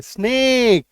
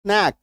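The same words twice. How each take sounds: First: "स्नेक" with a long, drawn-out ए. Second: "स्नैक" with a short, open ऐ; short open vowel. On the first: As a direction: stretch the vowel in "स्नेक". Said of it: "उच्चारण थोड़ा जोर डाल के". ("स्नेक", लंबे ए के साथ) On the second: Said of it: "दो अलग अलग उच्चारण है". ("स्नैक", छोटे खुले ऐ के साथ) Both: Shown as a demonstration.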